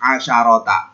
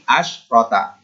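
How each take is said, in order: First: A vowel sound comes between sh and r. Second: No vowel sound comes between sh and r. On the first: The speaker calls it wrong. "jangan sampai asyrota dibaca asyarota" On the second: The speaker calls it right. "tapi asyrota"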